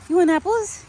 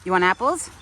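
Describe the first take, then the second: First: Much higher, loud singsong call. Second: Calling out loud at normal pitch. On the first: Calling her deer to the apples, high and loud. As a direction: pitch the call way up to get his attention. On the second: Offering her deer apples, a loud plain call. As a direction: call the question across the yard. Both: Real, not acted.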